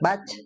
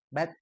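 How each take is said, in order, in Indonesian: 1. Bunyi t di akhir dilepas dengan berat, berlebihan. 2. Bunyi t di akhir dilepas dengan ringan, sedikit saja. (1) "becek ting" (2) "sedikit ya"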